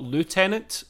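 The word is said in the common way. "not Lieutenant, as most people would say"

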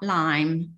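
It is said with a Yorkshire twang.

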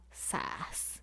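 It sounds like a pained, sympathetic oops.

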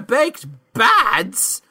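It is said in an exaggerated put-on voice.

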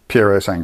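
Italian-sounding, with the final 'way' sound pronounced. The speaker calls it right. "the Italians pronounce the way on the end"

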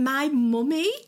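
It is said in a northern English accent. The speaker calls it wrong.

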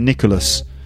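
The name is said with an English pronunciation. This is how people in England say it. "But I would say Nicholas"

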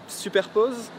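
The name is said with a French accent. "This is with my really, really French accent"

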